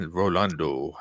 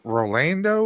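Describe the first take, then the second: First: "Rolando" with an open "ah" in the middle; Spanish-style pronunciation. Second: "Rolando" with a flat English "a" in the middle; English-style pronunciation. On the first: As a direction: say "Rolando" as ro-LAHN-do, lower and questioning. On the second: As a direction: say "Rolando" as ro-LAN-do, LAN as in land. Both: Shown as a demonstration. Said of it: "or is it".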